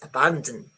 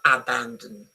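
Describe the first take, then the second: First: The unstressed vowels are reduced, almost dropped. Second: The unstressed vowels are said as full vowels. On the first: The speaker calls it right. "the second one ... it's not even there" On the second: The speaker calls it wrong. "It's not abandon"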